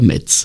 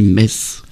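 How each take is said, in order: First: The word ends with a 'ts' sound. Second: The word ends with a plain 's' sound. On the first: The speaker calls it wrong. "on ne dit pas Metz" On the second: The speaker calls it right. "on dit Metz"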